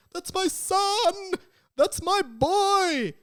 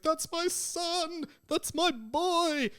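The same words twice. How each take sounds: First: High, loud anguished wail, slow; Amos Diggory. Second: High, drawn-out mock wail; Amos Diggory again. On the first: Retold or imitated. Grieving father shouting over his son, high wail. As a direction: cry out for the dead son. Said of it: "he's like". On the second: Podcaster recalling the mocked Harry Potter wail, high. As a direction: repeat the famous wail. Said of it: "that bit where he's like".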